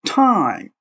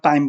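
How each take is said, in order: First: "টাইম" drawn out slowly, with a puff of air on T; aspirated T. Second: Said in the usual way. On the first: Shown as a demonstration. Teacher correcting learners, slow "টাইম" with an aspirated T. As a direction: burst the T of "টাইম" with breath, then stretch it. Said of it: "বলো টাইম". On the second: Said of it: "তুমি আর টাইম বলো না".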